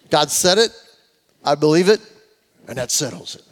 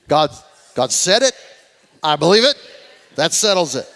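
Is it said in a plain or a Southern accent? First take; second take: plain; Southern. First: It is said in a plain everyday accent. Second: It is said in a 1950s Southern accent.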